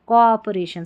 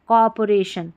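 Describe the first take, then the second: The two takes are said the same way.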